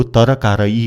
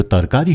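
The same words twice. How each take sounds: First: तरकारी said wrongly as ta-ra-kaa-raa-ee; mispronounced Nepali word. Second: तरकारी said tar-kaa-ree, three syllables; correct Nepali pronunciation. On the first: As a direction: add extra vowels to तरकारी: ta-ra-kaa-raa-ee. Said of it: "यो तरकारी होइन". (तरकारी लाई त-र-का-रा-ई भनेर गलत उच्चारण) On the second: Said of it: "यो तरकारी हो". (तरकारी लाई तर्-का-री भनेर सही उच्चारण) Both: Shown as a demonstration.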